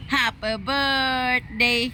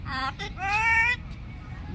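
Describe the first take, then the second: First: Very slow, soft, high sing-song; slow demo. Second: Slow parrot copy, softer; a bird echoing the slow words; parrot mimic. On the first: Shown as a demonstration. Owner drawing out each word for the parrot. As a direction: spell it out slowly so the parrot copies. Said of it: "slow demo for parrot". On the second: Real, not acted. Parrot echoing the owner's slow birthday greeting.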